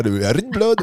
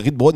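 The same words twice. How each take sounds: First: Teasing imitation of her Danish rugbrød; playful fake-Danish rugbrød; mock Danish accent. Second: Said in the usual way. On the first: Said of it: "dans votre tête, c'est comme ça l'accent". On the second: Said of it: "vous avez voulu quand même le faire".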